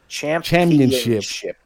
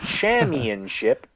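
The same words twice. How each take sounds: First: The p sound is clearly pronounced. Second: The p sound is dropped or unclear. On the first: The speaker calls it right. "There are two P's in that word" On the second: The speaker calls it wrong. "It's not championship"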